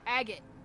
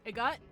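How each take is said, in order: First: The word is said like 'agate'. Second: The word is said like 'a gut'. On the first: The speaker calls it right. "Agate sounds correct" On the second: The speaker calls it wrong. "a gut doesn't sound right"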